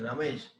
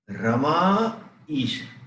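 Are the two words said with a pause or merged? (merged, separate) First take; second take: merged; separate. First: The two words merge into one without pause. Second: Two words are said with a clear pause between. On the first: "See how it become Ramesh" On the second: "I gave this much pause"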